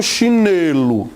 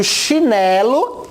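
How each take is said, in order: First: Chinelo mispronounced with a closed "ê"; wrong closed E. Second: Chinelo with an open "é", held a little. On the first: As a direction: offer chinelo wrongly as "chinêlo". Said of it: "não é chinelo". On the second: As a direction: offer chinelo as "chinélo", slowly. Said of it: "E com som mais aberto". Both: Shown as a demonstration.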